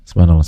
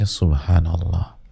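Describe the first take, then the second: First: It is said fast and slurred. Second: It is said slowly and clearly.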